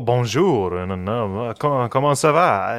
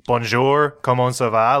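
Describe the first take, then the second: First: Put-on French accent on the greeting. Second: Put-on French words in an American English accent; non-French accent. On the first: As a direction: imitate your own attempt at a French accent. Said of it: "nice French accent you're putting on that". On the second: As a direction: say the French greeting with your own American accent. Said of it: "am I supposed to keep my".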